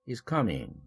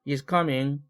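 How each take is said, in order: First: The pitch falls at the end. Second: The pitch stays level at the end. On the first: It is a statement. "내리죠. 하강 말미연접이에요" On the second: The sentence continues. "이럴 때 is coming 계속되죠. 지속 말미연접"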